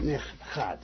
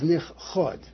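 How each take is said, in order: First: The final syllable has an 'a' vowel. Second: The final syllable has an 'o' vowel. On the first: It was hidden in the past. The speaker calls it wrong. "not nich chad. Because nich chad means in the past" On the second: It is hidden now. The speaker calls it right. "The right way to pronounce that, by the way, is nich chod"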